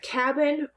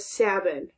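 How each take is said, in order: First: The word begins with a k sound. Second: The word begins with an s sound. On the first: The speaker calls it right. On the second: The speaker calls it wrong.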